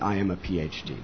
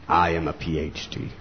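First: It is said loosely and casually. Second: It is said with weight and pride. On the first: The title is treated as a light matter. "they don't say loosely" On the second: The title is treated as a hard-earned achievement. "They say it with"

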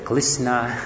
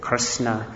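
First: Krishna is said the Chinese way. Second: Krishna is said the American way.

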